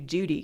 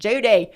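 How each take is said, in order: First: The name is said in a plain accent. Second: The name is said in a drawling Southern accent. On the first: "it's really hard to just call you Judy" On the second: "imitating my mom's accent, her southern accent"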